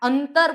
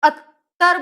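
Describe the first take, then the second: First: The nasal before the t is clearly sounded. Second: The nasal before the t is dropped. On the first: "અંતર અંતર બોલાય તો અનુસ્વારની તીવ્રતા છે" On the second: "અત્તર બોલાય"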